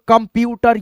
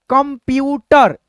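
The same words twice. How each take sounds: First: Brisk, joined-up reading; speed में पढ़ना. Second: Slow word, each syllable held; धीमा, तोड़कर. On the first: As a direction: say the syllables in one run. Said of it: "speed में पढ़ने का तरीका". (जोड़कर तेज़ी से पढ़ना) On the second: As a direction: spell it out by ear, slowly. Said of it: "पहले आप धीरे धीरे पढ़ते हो". (धीरे-धीरे अक्षर तोड़कर) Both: Shown as a demonstration.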